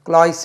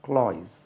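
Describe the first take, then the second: First: The word ends with a hissing s sound. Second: The word ends with a buzzing z sound. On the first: The speaker calls it wrong. "இல்லை" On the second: The speaker calls it right. "அது க்ளாய்ஸ்"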